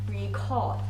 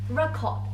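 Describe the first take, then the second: The two takes are said the same way.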